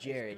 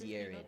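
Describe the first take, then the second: First: The name begins with a J sound. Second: The name begins with a Y sound. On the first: The speaker calls it wrong. "He is not Jared" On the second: The speaker calls it right. "He is Yared"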